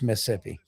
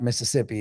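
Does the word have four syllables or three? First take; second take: three; four. First: A middle syllable is dropped, leaving three. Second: All four syllables are pronounced in full. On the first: This is how locals say it. The speaker calls it right. "it's Mississippi. It's M I S S I P P I" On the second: This is how outsiders say it. The speaker calls it wrong. "it's not Mississippi"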